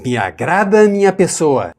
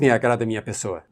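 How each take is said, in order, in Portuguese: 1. É dito com calor, cheio de sentimento. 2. É dito de forma monótona, sem sentimento. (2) "não diz"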